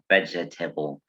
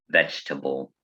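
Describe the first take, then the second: First: The vowel after 'veg' is pronounced. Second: The vowel after 'veg' is dropped. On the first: "when we spell the word, it looks like vegetable" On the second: "when we pronounce this word, we just say vegetable"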